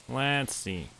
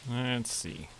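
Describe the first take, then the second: No difference in how they are said.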